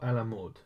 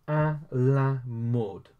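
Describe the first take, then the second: First: Said in the usual way. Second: À la mode stretched out slowly; slow model pronunciation. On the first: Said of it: "then you got à la mode". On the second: Shown as a demonstration. Teacher introduces the French for fashionable, slowly. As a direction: draw out each word of à la mode. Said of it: "So, you got à".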